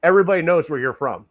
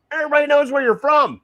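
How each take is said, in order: First: Said in the usual way. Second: Emphatic. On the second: Real, not acted. Repeating a point for emphasis.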